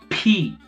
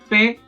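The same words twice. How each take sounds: First: The P is released with a strong puff. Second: The P is released without a strong puff. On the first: "In English, you say P, P and T are explosive" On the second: "But in Spanish, you say P, that doesn't happen"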